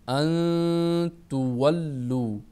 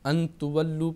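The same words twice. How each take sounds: First: The n is hidden as a held nasal sound. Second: The n is pronounced fully and clearly. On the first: The speaker calls it right. "एक अलिफ की मिक़दार हम रखेंगे" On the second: The speaker calls it wrong. "ये इजहार के कायदे में आगे, जो कि दुरुस्त नहीं है"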